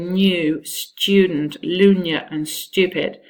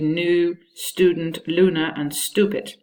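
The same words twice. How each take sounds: First: The words are said in a British RP accent. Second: The words are said in an American accent. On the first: The speaker calls it right. "in R P you say" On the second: The speaker calls it wrong. "in American English it would be"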